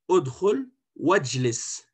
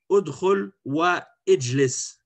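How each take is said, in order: First: The words run together with the last vowel dropped. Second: The last word starts with its own separate vowel. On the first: The speaker calls it right. "on va dire" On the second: The speaker calls it wrong. "on ne va pas dire"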